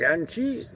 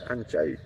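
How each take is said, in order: First: The second syllable ends in an 'ee' sound. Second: The second syllable ends in an 'eye' sound. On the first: The speaker calls it wrong. "you can pronounce it like Anchi, which is not really correct" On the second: The speaker calls it right. "It's Anchai"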